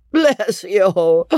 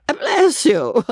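First: Tipsy high hiccuping voice; hiccuping drunk. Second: Put-on high weepy drunken wail; tearful drunk. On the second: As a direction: blubber it out tearfully. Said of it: "weeping pitifully". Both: A narrator's reading.

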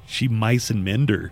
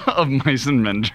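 First: "She mice and mend her" mumbled as one slurred phrase; garbled title. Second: "Of mice and men" said clearly, stress on "Of"; correct title. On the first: Retold or imitated. Retelling how Carol's mangled title sounded, slurred. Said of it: "I could not understand what he was trying to say". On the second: Shown as a demonstration. Correcting the garbled title, clearly. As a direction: spell out "Of mice and men" word by word.

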